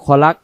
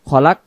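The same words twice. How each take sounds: First: The final k is light and stops flat. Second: The final k is light and stops flat.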